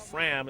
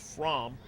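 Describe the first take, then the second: First: The vowel sounds like the 'a' in 'ram'. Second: The vowel sounds like the 'o' in 'from'. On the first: The speaker calls it wrong. "If I pronounced it Fram" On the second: The speaker calls it right. "it's Fromm"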